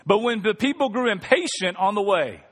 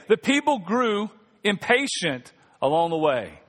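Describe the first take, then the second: First: Said in the usual way. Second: "The people grew impatient along the way" read slowly with weight on "people"; slow down and lean on "people"; slowed emphatic reread. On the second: Shown as a demonstration. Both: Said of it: "let's read that again".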